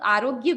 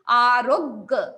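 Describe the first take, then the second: First: The word is said plainly, without pressure on r. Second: The word is said with pressure on the r. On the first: The speaker calls it wrong. "आरोग्य को सरलता से नहीं बोलना है" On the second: The speaker calls it right. "र पर pressure जाएगा"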